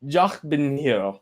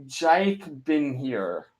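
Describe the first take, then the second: First: Slow "Jach bin here", open ah in "Jach"; German-style guess. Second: Slow, soft "Jake bin here", plain English J; tentative pronunciation. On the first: Streamer wonders if the username is German, German-style guess. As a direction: try "Jach bin here" slowly with a German-like first word. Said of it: "Is that German?". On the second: Streamer guesses at a viewer's username, tentative pronunciation. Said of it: "I don't know how to pronounce it". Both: Shown as a demonstration.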